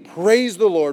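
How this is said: It is said like a firm command.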